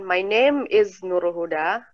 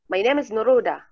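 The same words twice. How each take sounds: First: Name and is are said as separate words. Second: Name runs smoothly into is without a break. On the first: The speaker calls it wrong. "Jadi bukan" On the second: The speaker calls it right. "but ... Which one is more um sounds like uh natural"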